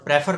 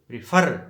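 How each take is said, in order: First: The stress is on the first syllable. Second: The stress is on the second syllable. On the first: The speaker calls it wrong. "Prefer नहीं" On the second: The speaker calls it right. "एफ़ पे आके हम stress देंगे"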